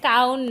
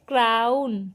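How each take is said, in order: First: The word is said without an r sound. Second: The word is said with an r sound. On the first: The speaker calls it wrong. "এটা কাউন না" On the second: The speaker calls it right. "বলো ক্রাউন"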